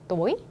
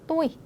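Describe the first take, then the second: First: The word is said with a rising tone. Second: The word is said on a level tone. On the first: It means 'evening'. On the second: It means 'I'.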